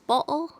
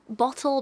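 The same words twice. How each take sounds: First: The middle t sound is left out. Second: The middle t sound is clearly pronounced.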